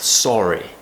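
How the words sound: The first vowel is rounded, British style. "round shape with the mouth"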